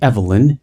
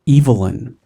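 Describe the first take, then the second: First: The name is said in the game's non-British way. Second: The name is said in the British way. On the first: "I will use the game's pronunciation" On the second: "I am screaming"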